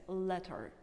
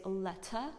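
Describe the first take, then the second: First: "letter" ending on a clear R; "letter" as "letterr"; American R. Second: "letter" ending in "uh", no R; "letter" as "lettah"; British dropped R. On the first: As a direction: say "letter" with the final R sounded. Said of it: "but we say letter". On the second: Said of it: "letter in British accent". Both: Shown as a demonstration.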